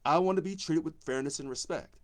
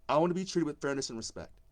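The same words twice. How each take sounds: The two takes are said the same way.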